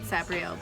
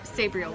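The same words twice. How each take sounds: First: The first part does not sound like 'saber'. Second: The first part sounds like the word 'saber'. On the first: "I've always called it Sabriel" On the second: "Sabriel would also make sense because she's got a cool saber"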